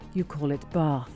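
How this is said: Bath is said in a southern English accent.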